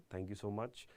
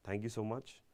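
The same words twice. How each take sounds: The two takes are said the same way.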